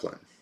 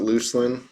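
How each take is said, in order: First: The first syllable sounds like 'luck'. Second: The first syllable sounds like 'loose'. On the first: "I call it Luckland" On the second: "that loose sound"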